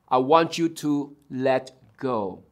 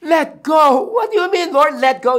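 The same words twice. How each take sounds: First: Low, soft, measured instruction; acted God, quietly firm; calm God. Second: High, alarmed questioning, acted; shocked disbelief. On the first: God tells man on branch to let go, calm low voice. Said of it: "and God said". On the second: Frightened man questions God's instruction, acted shrieked disbelief. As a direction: balk at it in a leaping high voice.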